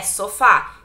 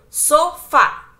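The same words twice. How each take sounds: First: Said in the usual way. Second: "sofá" slowly split into so, fá; syllable by syllable. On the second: Shown as a demonstration. Teacher showing the strongest syllable, split and stressed. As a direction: break "sofá" in two, leaning on the final fá. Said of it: "é a mais forte".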